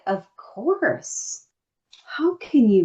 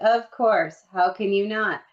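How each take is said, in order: First: It is said with great passion. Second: It is said in a flat, ordinary way.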